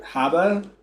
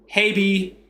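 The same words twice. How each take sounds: First: "habe" as HAH-buh, rising at the end; attempted German. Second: "habe" as HAY-bee in Texan, pitched up; Texas accent. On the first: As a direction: try "habe" in German, questioning and higher. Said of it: "not used to saying". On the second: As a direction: finish in an exaggerated Texas twang. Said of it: "I'll put, like, a Texas accent on". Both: Shown as a demonstration.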